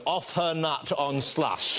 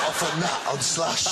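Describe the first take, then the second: First: "Off her nut on slush" said slowly, each word weighted; savoring the phrase. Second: Said in the usual way. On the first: Shown as a demonstration. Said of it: "I want that phrase to be remembered".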